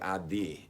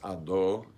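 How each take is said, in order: First: The final vowel sounds like 'ee'. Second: The final vowel sounds like 'oh'. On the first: The speaker calls it wrong. "sometimes they'll say adi instead of ado" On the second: The speaker calls it right. "It's ado"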